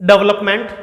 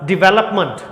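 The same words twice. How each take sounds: First: डेवलपमेंट as dəvləpment; wrong डेवलपमेंट, dəvləp; common wrong reading. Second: डेवलपमेंट as dɪveləpmənt; the right डेवलपमेंट, dɪveləpmənt; correct pronunciation. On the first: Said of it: "सभी लोग बोलते हैं उसे". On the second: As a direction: say डेवलपमेंट with dɪ-ve-ləp. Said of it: "सही pronunciation". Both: Shown as a demonstration.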